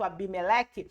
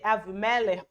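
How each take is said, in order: First: The second consonant is a b sound. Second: The second consonant is a v sound. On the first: The speaker calls it wrong. "nas nossas Bíblias em português vai estar escrito Abimeleque" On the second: The speaker calls it right. "o nome é certo é Avimelech"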